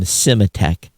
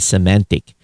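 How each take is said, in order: First: The name ends with a 'tech' sound. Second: The name ends with a 'tic' sound. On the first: The speaker calls it wrong. "I called Symantec Symatech" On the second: The speaker calls it right. "instead of Semantic"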